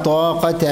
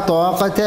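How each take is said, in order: No difference in how they are said.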